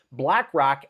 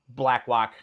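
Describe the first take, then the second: First: Said in the usual way. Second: Blackrock with the R softened to W, "Blackwock"; slipped R sound. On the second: Real, not acted. Host tripping over a name while reading, Blackrock said as "Blackwock". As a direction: stumble on Blackrock, saying "Blackwock". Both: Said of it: "we can't start like this".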